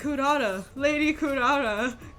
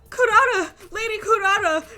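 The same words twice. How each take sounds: First: The voice stays flat with no change in pitch. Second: The voice rises a little higher with mild emotion. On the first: No effort is put into sounding upset. "you change nothing" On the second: The character is meant to sound upset. "Her voice just, like, goes a little bit higher"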